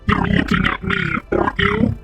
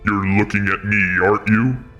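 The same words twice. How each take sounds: First: It is said in a put-on demon voice. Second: It is said in a put-on God voice.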